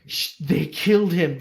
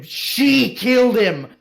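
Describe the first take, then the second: First: Said in the usual way. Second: "She" punched higher and louder, slow; slow, loud correction landing on "She"; stress on SHE. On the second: Shown as a demonstration.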